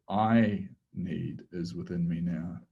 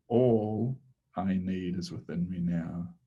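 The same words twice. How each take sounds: First: "I" leaned on, a little slower overall; stress on I. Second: "All" leaned on at the start, rest even; stress on ALL. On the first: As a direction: put the weight on "I". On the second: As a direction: open with a firm hit on "All". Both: Shown as a demonstration. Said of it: "shifting the emphasis from all to I to need".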